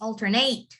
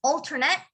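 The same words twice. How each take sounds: First: "alternate" with a full "nate" at the end; long A in the last syllable of "alternate"; verb pronunciation. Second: "alternate" with a short "net" at the end; noun pronunciation. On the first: Teacher summing up the verb, full ending. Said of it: "The verb is". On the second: Teacher summing up the noun, short ending. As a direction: keep the last syllable of "alternate" short. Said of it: "So the noun is". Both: Shown as a demonstration.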